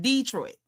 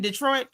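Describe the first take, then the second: First: Detroit with a drawn-out, stressed first syllable DEE. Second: Detroit with the stress on the second syllable; standard Detroit. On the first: Host explaining the difference to viewers, DEE-troit pronunciation. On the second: Host explaining the difference to viewers, standard pronunciation. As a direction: say Detroit the proper way, de-TROIT. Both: Shown as a demonstration. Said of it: "It's the difference in".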